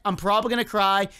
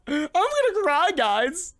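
First: Said in the usual way. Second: High, gasping fake-tearful whine; mock crying. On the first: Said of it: "You heard my voice?". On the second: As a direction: pretend you're about to burst into tears. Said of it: "Can you hear it in my voice?".

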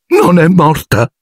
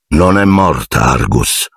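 First: High, slow, choked disbelief; choked high caretaker's voice. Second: Calm. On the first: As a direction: gasp it out, half strangled. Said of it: "ripeté Filch con voce soffocata". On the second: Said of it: "disse tranquillamente". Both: Acted.

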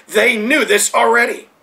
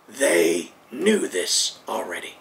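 First: Said in the usual way. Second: Hushed. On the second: Real, not acted. Preacher stressing the point.

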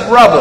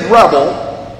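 First: "revel" with a clear V in the middle; corrected pronunciation. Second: "rebel" said slowly, with a B in the middle; mispronunciation contrast. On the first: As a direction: stress the V of "revel", as in victory. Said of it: "R E V. V as in victory". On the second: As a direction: stress the B sound in "rebel". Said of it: "I didn't say rebel". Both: Shown as a demonstration.

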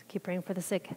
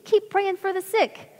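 First: Soft, low-key own voice; quiet repetition. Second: High, slow Southern drawl; Southern accent. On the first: Real, not acted. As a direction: say it quietly, as a takeaway. Repeats the advice in own voice. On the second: Retold or imitated. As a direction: imitate a Southern preacher, stretched out and high. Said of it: "In his kind of southern accent".

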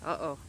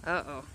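No difference in how they are said.

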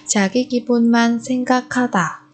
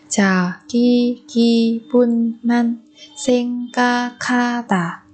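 First: Said in the usual way. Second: "자기 기분만 생각하다" slowly, syllable by syllable; drawn-out teaching model of "자기 기분만 생각하다". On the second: Shown as a demonstration. Teacher repeats phrase syllable by syllable.

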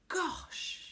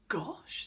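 First: High, breath-filled gasp of wonder; amazed. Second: Hushed, uneasy little gasp; alarmed. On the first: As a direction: breathe it out in awe. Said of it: "enjoying Connie's surprise". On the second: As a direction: let it out in worry. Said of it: "said Connie, alarmed". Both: A narrator's reading.

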